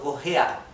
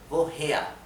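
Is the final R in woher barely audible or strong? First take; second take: strong; barely audible. First: The final R is a clear guttural sound. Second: The final R is almost not heard. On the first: "como para ir familiarizándose con la pronunciación eh, gutural de la R alemana" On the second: "la R se vuelve casi imperceptible"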